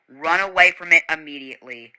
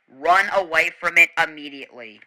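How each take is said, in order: Both takes have the same delivery.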